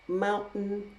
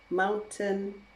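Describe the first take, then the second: First: The T is replaced by a glottal stop. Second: The T is fully released as a sound. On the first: "Now I'm going to use a glottal stop for each of them" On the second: "That is using the true T, the T sound"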